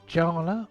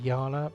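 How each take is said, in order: First: The name begins with a J sound. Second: The name begins with a Y sound. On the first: "I'm going to say Jala" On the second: "or possibly Yala"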